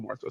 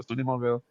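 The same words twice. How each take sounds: First: "Morrisville" said in full, with the "ris" syllable; full pronunciation. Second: "Mobile" said as "Mo-ville", the local short form; local contracted pronunciation. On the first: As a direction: give "Morrisville" all three syllables. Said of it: "we don't call it Morrisville". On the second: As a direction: squash Morrisville into "Mobile", like "Mo-ville". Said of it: "We don't call it Morrisville". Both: Shown as a demonstration.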